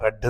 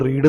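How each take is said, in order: First: The vowel is short, like 'red'. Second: The vowel is long, like 'reed'. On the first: The speaker calls it right. "റെഡ് എന്നാണ് വായിക്കേണ്ടത്" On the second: The speaker calls it wrong. "നമ്മൾ റീഡ് എന്ന് വായിക്കാൻ പാടില്ല"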